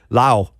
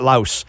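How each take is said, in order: First: The word ends without an s sound. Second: The word ends with an s sound. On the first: The speaker calls it right. "I have a buddy who went to Lao" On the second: The speaker calls it wrong. "not Laos"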